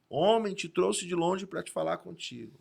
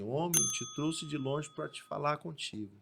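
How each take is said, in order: First: It is said in a louder, stronger voice. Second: It is said in a normal, softer voice.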